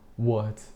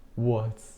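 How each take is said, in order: Both takes have the same delivery.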